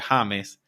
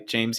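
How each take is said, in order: First: The name begins with an H sound. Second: The name begins with a J sound. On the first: This is the name used locally. "I go by James, but it's obviously spelled the, the same way" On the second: This is the usual name back home. "I don't go by James here"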